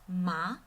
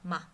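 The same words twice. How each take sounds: First: The pitch rises from middle to high. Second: The syllable is short, soft and light. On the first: "goes out from middle pitch to high pitch" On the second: "more like a whisper... goes away quickly and gently"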